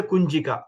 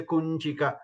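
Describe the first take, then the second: First: "Kunchika" with a simple n only; common mispronunciation. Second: "Kunchika" with a palatal ny before chi; palatal nasal. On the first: Teacher imitating what people say, simple n in "Kunchika". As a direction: use an ordinary n in "Kunchika". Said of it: "they use N only". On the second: Teacher giving the correct word, palatal nasal in "Kunchika". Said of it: "from the Talavya". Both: Shown as a demonstration.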